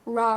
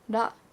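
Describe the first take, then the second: First: The consonant is an English-style r sound. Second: The consonant is a quick tap, between r and d. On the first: The speaker calls it wrong. "It's not ra" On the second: The speaker calls it right. "the front of the roof of your mouth, that's where your tongue touches"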